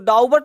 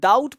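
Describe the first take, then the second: First: The b sound is pronounced before the t. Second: The b sound is silent before the t. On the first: The speaker calls it wrong. "इसको डाउबट नहीं पढ़ना है" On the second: The speaker calls it right. "इसको डाउट पढ़ना है"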